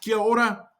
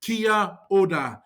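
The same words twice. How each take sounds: First: "Kia ora" quick and run together; said fast. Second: "Kia ora" slowly, word by word; slow demonstration. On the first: Teacher showing the greeting at speed, "Kia ora" said fast. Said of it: "Say it fast". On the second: Teacher showing beginners how to read a greeting, "Kia ora" said slowly. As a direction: stretch out "Kia ora" for learners. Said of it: "read these words in yellow as if they are English". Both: Shown as a demonstration.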